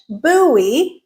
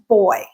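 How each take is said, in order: First: It is said the American way, unlike boy. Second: It is said the British way, like boy. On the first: "So American English" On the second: "British English"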